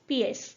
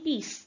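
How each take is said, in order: First: It is said the French way with two vowel sounds. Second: It is said the English way with one vowel. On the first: The word is read as French. "French pronunciation" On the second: The word is read as English. "अगर हम इंग्लिश में करेंगे तो we will see only पीस"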